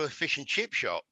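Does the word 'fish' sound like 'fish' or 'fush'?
fish. Fish and chip have a short 'i' vowel.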